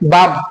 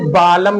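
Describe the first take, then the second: First: The L sound is left out of the word. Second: The L sound is pronounced in the word. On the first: The speaker calls it right. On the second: The speaker calls it wrong.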